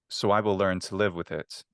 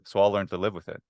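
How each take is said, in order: First: "I will" is said as two full words. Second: "I will" is contracted to "I'll". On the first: It is a careful, recitation-like way of speaking. "is how I would prefer to recite this" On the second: It is a relaxed, everyday way of speaking. "I would just make a contraction"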